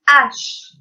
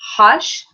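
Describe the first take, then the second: First: The word begins directly with the vowel. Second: The word begins with an audible h sound. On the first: The speaker calls it right. "H is silent" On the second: The speaker calls it wrong. "it's not hush"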